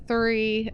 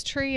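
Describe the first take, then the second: First: Said in the usual way. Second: "tree" with a hard t for the th of three; "tree", the Irish way of saying three; Irish-style "tree". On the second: Shown as a demonstration. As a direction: say "tree" with a plain t, no th. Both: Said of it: "It's tree instead of three".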